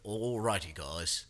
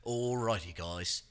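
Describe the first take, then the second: First: Mild Australian cooking-show greeting; a light nod to an Aussie host saying hi; Australian TikTok chef. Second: Lightly done Australian greeting; a hint of an Aussie cook opening a video; Australian TikTok chef. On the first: Retold or imitated. Retelling how the Australian cook opens each episode, lightly accented. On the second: Friend imitating the Australian TikTok cook's opener, lightly accented. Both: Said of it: "he starts every episode with".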